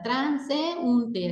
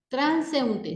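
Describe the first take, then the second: First: "transeúnte" slow, in beats, tran, se, ún, te; syllables separated. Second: Said in the usual way. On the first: Shown as a demonstration. Teacher shows accentual hiatus to students, "transeúnte" slowly split at the ú. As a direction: break "transeúnte" apart so the ú stands alone. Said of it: "dándole un extra de entonación que separa la sílaba".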